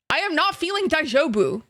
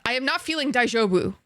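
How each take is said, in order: First: Higher, insistent stress on "not"; emphatic repeat. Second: Said in the usual way. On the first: Real, not acted. Streamer telling chat how she feels, emphatic. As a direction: punch "not" with a raised pitch.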